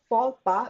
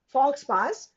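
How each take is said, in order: First: The x and s sounds are silent. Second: The x and s sounds are pronounced. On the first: The speaker calls it right. "This is pronounced as faux pas" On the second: The speaker calls it wrong. "This is not fox pass"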